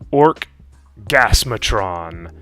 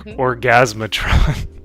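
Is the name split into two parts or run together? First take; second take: split; run together. First: The name is said as two separate parts. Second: The name is said quickly as one word.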